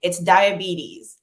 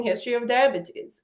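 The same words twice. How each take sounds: First: Diabetes said slow and firm the American way; patient correcting the pronunciation of diabetes; American correction. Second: Diabetes said the Nigerian way, a touch higher; history of diabetes in a Nigerian accent; Nigerian pronunciation. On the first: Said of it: "the patient goes". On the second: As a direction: give diabetes its Nigerian sounds. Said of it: "Nigerians pronounce diabetes as diabetes". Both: Retold or imitated.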